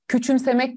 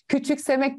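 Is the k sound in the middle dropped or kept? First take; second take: dropped; kept. First: The k sound in the middle is dropped. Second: The k sound in the middle is kept. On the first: The speaker calls it right. "Küçümsemek diyorum. ... K sesini düşürdüm" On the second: The speaker calls it wrong. "küçüksemek demiyorum"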